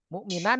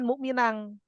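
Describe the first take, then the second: First: The final n is pronounced clearly. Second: The final n becomes an ng sound. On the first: The speaker calls it right. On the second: The speaker calls it wrong.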